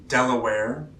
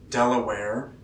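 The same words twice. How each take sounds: The two takes are said the same way.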